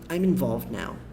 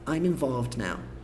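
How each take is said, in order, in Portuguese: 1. O d em involved é quase silencioso. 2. O d em involved é fraco, mas se ouve.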